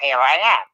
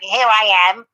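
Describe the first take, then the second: First: The voice is pitched noticeably lower. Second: The voice is at its normal pitch.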